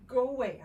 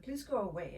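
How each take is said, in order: First: Much louder, firm "Go away"; strict command. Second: Said in the usual way. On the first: Retold or imitated. Strict mother sending her husband away, much louder. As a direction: order him out, no discussion. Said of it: "I had to be very strict". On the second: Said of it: "So I said to her, my husband".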